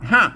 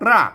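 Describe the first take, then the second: First: The word begins with an h sound. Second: The word begins with an r sound. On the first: This is the Northern Thai (Kham Mueang) pronunciation. "อันเมืองมันออกฮัก" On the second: This is the Central Thai pronunciation. "ไทยออกรากนะ"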